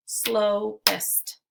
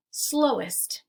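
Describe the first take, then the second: First: "Slowest" in two separate beats, SLOW, EST; split into syllables. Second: Said in the usual way. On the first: Shown as a demonstration. Teacher clapping out syllables for learners, "Slowest" segmented as slow ... est. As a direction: break "Slowest" with a pause between slow and est. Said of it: "we'll clap out the syllables". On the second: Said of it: "Let's segment syllables now".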